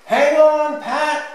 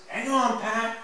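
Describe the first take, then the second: First: High, full shout of warning; mummy yelling out, much louder and higher. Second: High call without the shout; high child-like echo of the call; lighter repeated call. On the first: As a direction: shout it across the playground. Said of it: "Mummy says in a loud voice". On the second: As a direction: repeat the warning pitched up, at normal volume. Repeat after the loud shout. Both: A narrator's reading.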